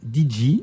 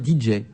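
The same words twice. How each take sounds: First: The J is said with its French letter name. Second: The J is said with its English letter name. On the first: The speaker calls it wrong. "vous vous dites D J" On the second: The speaker calls it right. "le J se prononce J, donc il faut dire D J"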